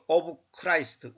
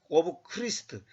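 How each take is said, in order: First: Christ is said with an 'eye' vowel. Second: Christ is said with a short 'ih' vowel. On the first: This is a convenient later way of saying it. The speaker calls it wrong. "미국 사람들이 자기들 편리하게 발음한 거고" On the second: This is the original way of saying it. The speaker calls it right. "원래는 크리스트입니다"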